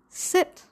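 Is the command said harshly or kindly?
kind. The command sounds gentle and kind. The speaker calls it right. "Be kind. The tone is important"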